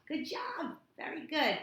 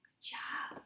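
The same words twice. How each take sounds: First: Higher bright praise. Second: Soft whispered good job; whispered praise. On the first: Tutor cheering her reader after she writes fold. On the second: Tutor whispering praise to her reader. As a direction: breathe the praise with no voice. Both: Real, not acted.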